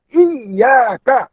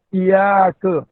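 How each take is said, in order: First: "iya ka" slow, with a doubled, held y; correct sabdu reading. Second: "iya ke" slow, single y and dull final "ke"; wrong reading. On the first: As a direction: press the double y in "iya ka", open "ka". ("iya ka" bersabdu, jelas) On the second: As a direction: drop the doubling in "iya ke". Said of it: "bukan iya ke". ("iya ke" tanpa sabdu) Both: Shown as a demonstration.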